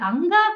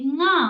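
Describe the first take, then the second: First: It starts with an a vowel before nga. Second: It starts directly with a nasal nga sound. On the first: The speaker calls it wrong. "అది తప్పు. అది అంగా కాదు" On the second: The speaker calls it right. "అది ముక్కుతోటి గా అంటూ ముక్కుతో అనండి"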